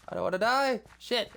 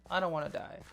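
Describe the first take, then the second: First: Sudden high, loud panic; panicked yelp. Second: Said in the usual way. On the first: Real, not acted. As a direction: cry it out in a jolt of fear. Sudden panic while building.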